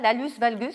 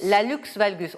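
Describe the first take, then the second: First: The first word ends with a plain s sound. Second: The first word ends with a k-s sound. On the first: The speaker calls it wrong. "On prononce comme ça" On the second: The speaker calls it right. "On prononce le X de la fin"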